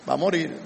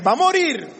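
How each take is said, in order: First: Second take, let "va a morir" sink low; lowered concession. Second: "Va a morir" said higher, with "morir" stressed; first take, lift "morir" high and firm; raised emphatic. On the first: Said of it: "pero no eternamente". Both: Shown as a demonstration.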